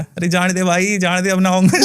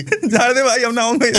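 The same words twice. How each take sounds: First: Lightly voiced spirit pleading to be let go; a hint of a whining ghost, half-laughing; mock begging spirit. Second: Higher, laughing imitation of a pleading ghost; mock begging spirit. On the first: Healer retells the spirit begging to leave, lightly pleading. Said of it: "तो वो चिल्लाने लगा". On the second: Healer re-acts the spirit's plea for his host, higher and amused. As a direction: ham up the spirit begging for mercy. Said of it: "विचित्र किस्म की ना बातें करने लगा".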